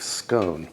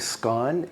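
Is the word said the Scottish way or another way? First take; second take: other; Scottish. First: The word is said a non-Scottish way. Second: The word is said the Scottish way. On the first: "you can certainly say scone" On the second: "Scone is the proper Scottish pronunciation"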